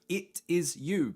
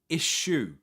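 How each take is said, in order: First: Each word is said separately and fully. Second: The words blend into one word like issue. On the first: "it is you becomes" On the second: "becomes it shoe"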